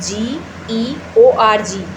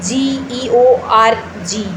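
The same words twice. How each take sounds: No difference in how they are said.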